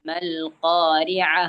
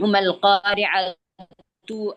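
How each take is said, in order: First: The word ends with a soft 'h' sound. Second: The word ends with a full 'tu' syllable. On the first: The reading stops at this word. "അവിടെ നിർത്തുമ്പോ" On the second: The reading continues past the word. "മൽ ഖാരിഅതു ആണ്"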